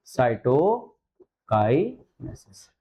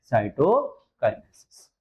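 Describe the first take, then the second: First: cytokinesis drawn out with a rising end; very slow dictation. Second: cytokinesis spelled out slowly, falling at the end; slow dictation. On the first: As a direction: stretch cytokinesis out, voice going up. (बहुत धीरे, अंत में ऊँचा सुर) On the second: (धीरे बोलकर लिखवाना) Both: Shown as a demonstration. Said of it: "क्या नाम देंगे बेटा".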